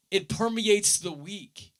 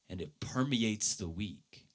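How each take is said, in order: First: "permeates" lifted high and held; emphatic. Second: Said in the usual way. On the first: Shown as a demonstration. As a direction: preach "It permeates the week" higher, rising on "permeates". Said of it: "it goes beyond the hour". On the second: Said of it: "I love this statement".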